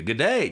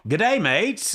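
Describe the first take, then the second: First: Said in the usual way. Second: Mock Aussie "Good day, mates", higher and rising; Australian greeting. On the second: Shown as a demonstration. Host greeting his Australian listeners in a mock Aussie accent. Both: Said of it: "How do you say that?".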